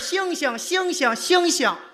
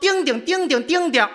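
First: The word is pronounced clearly and normally. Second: The word is slurred with a thick tongue. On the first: "他说的是星星星星星星" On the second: "一家的大舌头"

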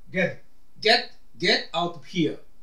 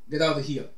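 First: Each word is said separately and fully. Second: The words are linked and shortened together.

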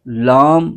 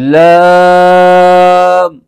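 First: The voice goes through the nose. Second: The voice stays out of the nose. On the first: The speaker calls it wrong. "इसको लाम नहीं पढ़ेंगे, नाक में आवाज नहीं लेके जानी" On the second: The speaker calls it right. "बल्कि लाम पढ़ेंगे"

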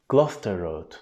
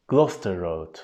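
The two takes are said the same way.

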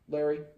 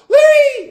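First: The word is said calmly and quietly. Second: The word is said loudly and excitedly. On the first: The speaker calls it right. "So you want to say it just Larry" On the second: The speaker calls it wrong. "A lot of people are like"

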